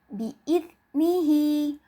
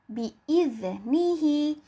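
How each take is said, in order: Both takes have the same delivery.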